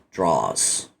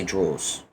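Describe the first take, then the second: First: "draws" with an open ah, like drahs; American pronunciation. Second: "draws" with a rounded aw vowel; British pronunciation. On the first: Streamer mimicking listeners' American "draws", open slow ah. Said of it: "You'll say draws". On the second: Streamer showing their own British "draws", rounded aw. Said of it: "Well, I say draws". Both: Shown as a demonstration.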